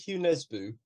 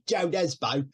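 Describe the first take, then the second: First: The first name does not sound like English Joe. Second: The first name sounds like English Joe. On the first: "I really like Hugh Nesbo" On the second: "it's spelled Joe Nesbo, but it sounds a bit weird"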